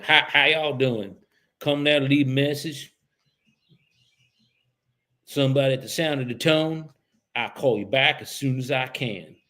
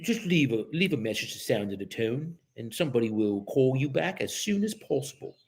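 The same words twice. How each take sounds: First: Mock Southern voicemail greeting; Southern accent. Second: Mock English-accented voicemail recording. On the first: Imagining this voicemail heard in England, mock Southern accent. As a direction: put on a folksy Southern answering-machine voice. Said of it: "Here's one". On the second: Agent mocking the voicemail over here, English accent. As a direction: imitate a formal English answering-machine greeting. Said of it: "Because over here we have".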